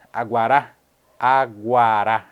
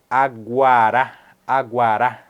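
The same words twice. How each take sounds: The two takes are said the same way.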